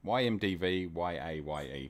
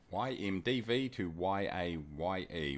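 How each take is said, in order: First: Said in the usual way. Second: Spelling it out slowly, letter by letter; careful, unhurried readback for listeners. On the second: Real, not acted. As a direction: give each code letter room. Repeats airport codes slowly for viewers.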